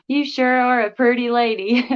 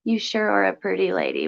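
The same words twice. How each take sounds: First: Put-on country accent. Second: Put-on lightly country-accented reading aloud. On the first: Streamer repeating a viewer's compliment after laughing, playful country accent. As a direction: ham up the country accent, amused. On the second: Streamer reading a viewer's compliment aloud, slight country accent. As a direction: read it with a slight country twang. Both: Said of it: "country accent".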